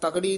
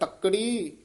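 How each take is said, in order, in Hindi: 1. बीच का व्यंजन हल्के से बोला जाता है। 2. बीच का व्यंजन कसकर रोका जाता है। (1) "ਤਕੜੀ ਨਹੀਂ ਕਹਿਣਾ" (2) "ਇਹ ਕਸ ਕੇ ਉਚਾਰਨ ਕਰਨਾ ਹੈ"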